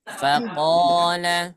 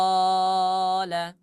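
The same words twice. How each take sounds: First: Faqala with the first a drawn out long; Faqala, vowel held slow; stretched long a. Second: Faqala with every vowel drawn out too long; faqala, mock over-long vowels; wrong stretched reading. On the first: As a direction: hold the long vowel in Faqala for two beats. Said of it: "Di sini ada hukum apa?". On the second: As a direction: drag each vowel of faqala slowly, the wrong way. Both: Shown as a demonstration.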